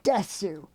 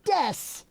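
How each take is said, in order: First: The final u vowel is clearly pronounced. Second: The final u vowel is dropped. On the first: The speaker calls it wrong. "make sure you say it wrong" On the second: The speaker calls it right. "It should be said Des"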